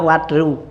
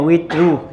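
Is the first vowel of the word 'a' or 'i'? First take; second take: a; i. First: The first vowel is an 'a' sound. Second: The first vowel is an 'i' sound. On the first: "boleh juga watru" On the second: "boleh kasroh wawunya"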